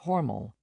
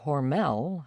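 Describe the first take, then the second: First: The stress is on the first syllable. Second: The stress is on the second syllable. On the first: This is how the family and locals say it. "the family's pronunciation of Hormel" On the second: This is the company's rebranded version. "the newly accentuated Hormel"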